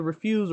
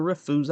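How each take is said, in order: First: "refuse" as the noun, REF-yoos; first pronunciation option. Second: "refuse" said as rih-FOOZ; alternative pronunciation. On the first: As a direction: stress the first syllable of "refuse". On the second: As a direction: stress the second syllable of "refuse". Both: Shown as a demonstration. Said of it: "It's either refuse or refuse".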